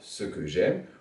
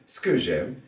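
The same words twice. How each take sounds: First: The E vowels in ce que are pronounced. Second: An E vowel in ce que is dropped.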